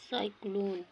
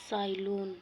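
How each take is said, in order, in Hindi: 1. बीच की 'k' आवाज़ बोली जाती है। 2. बीच की 'k' आवाज़ छोड़ दी जाती है। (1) "सही उच्चारण हो" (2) "उच्चारण में मिस्टेक होला"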